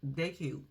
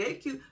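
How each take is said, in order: First: Said in the usual way. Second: Laughing. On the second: Real, not acted. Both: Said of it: "Let me tell you".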